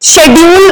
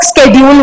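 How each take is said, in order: First: The word begins with an 'sh' sound. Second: The word begins with an 'sk' sound. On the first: "शेड्यूल बोलते हैं कुछ लोग" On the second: "कुछ लोग स्केड्यूल बोलते हैं"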